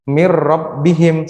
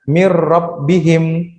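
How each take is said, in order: Both takes have the same delivery.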